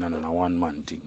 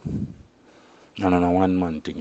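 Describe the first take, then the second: First: Said in the usual way. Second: Slow, drawn-out, weighted repeat; slow emphatic repeat. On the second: Shown as a demonstration. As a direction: lean on each word of "And on a one man thing" slowly.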